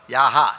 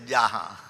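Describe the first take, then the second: First: The word begins with a y sound. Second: The word begins with a j sound. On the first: This is the Sanskrit form. "तो हम लोग संस्कृत में यहाँ" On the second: This is the Bengali form. "respecting Bengali, then you can say jaha"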